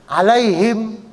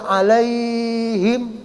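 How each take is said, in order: First: Said in the usual way. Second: "Alaihim" with the lai glide held very long; drawn-out vowel. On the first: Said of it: "nggak boleh dibaca panjang". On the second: Shown as a demonstration. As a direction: stretch the "ai" in "Alaihim" far too long on a level note. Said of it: "itu nggak boleh".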